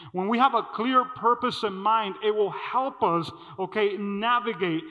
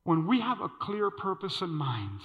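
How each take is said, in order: First: Preaching emphasis. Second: Said in the usual way. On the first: Shown as a demonstration.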